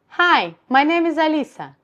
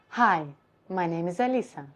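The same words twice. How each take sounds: First: The voice is raised with a high larynx. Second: The voice is lowered with a low larynx. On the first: "Higher position of larynx" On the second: "if I would do lower position of my larynx"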